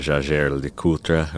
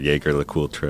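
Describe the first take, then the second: First: The name has a non-American pronunciation. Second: The name has an American pronunciation.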